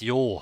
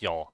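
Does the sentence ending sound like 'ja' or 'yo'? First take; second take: yo; ja. First: The ending is said with a rounded 'yo' vowel. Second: The ending is said with an open 'ja' vowel. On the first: The speaker calls it right. "It's yo" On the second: The speaker calls it wrong. "the most common pronunciation mistake that I do is ja in the end"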